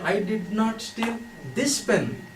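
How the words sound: The stress is on "this".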